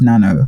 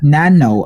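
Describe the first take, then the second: First: It is said with Japanese pronunciation. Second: It is said with American pronunciation. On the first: The speaker calls it right. "it's just nano" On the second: The speaker calls it wrong. "Americans would be like"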